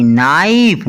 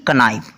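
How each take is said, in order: First: "नाइफ" starting straight on n; silent K. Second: "कनाइफ" with a k before the n; wrongly sounded K. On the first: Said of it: "ना कि कनाइफ". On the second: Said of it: "ना कि". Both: Shown as a demonstration.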